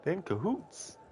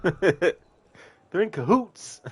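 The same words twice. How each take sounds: First: Lighter, quicker imitation of Alex; Alex's line again. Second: Slow, drawn-out imitation of Alex; Alex's way of saying it. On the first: Streamer repeating the game character's line, lightly imitated. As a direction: toss off Alex's line once more. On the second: Streamer imitating a game character's line, drawn-out and slow. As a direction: stretch it out like Alex does in the game. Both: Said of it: "I love the way Alex says that".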